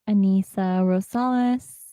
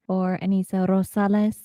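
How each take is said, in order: First: The name is said in a plain English accent. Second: The name is said in a Spanish accent, rolled R. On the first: The speaker calls it wrong. "I guess the lazy person in me sometimes just says it" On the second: The speaker calls it right. "if I, you know, channel my Spanish accent"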